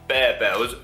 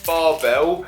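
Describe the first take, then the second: First: The first syllable sounds like 'bare'. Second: The first syllable sounds like 'bar'. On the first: The speaker calls it right. "It's Barebells" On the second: The speaker calls it wrong. "I think I'm actually pronouncing that wrong"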